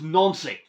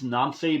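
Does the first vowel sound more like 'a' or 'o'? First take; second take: o; a. First: The first vowel sounds more like an 'o'. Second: The first vowel sounds like a plain 'a'. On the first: The speaker calls it right. "the correct pronunciation ... The French way of saying it ... they pronounce their A's as O's" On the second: The speaker calls it wrong. "some people say it's Nancy"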